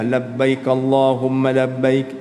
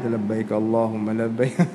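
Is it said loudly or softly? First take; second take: loudly; softly. First: It is said at a normal, audible loudness. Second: It is said softly, barely audible.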